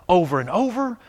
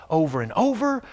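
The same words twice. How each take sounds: Both takes have the same delivery.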